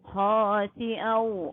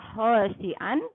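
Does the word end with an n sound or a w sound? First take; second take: w sound; n sound. First: The final n merges into a w sound. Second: The word ends with a clear n sound. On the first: The speaker calls it right. "melainkan dibaca khasi'au" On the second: The speaker calls it wrong. "tidak dibaca khasi'an"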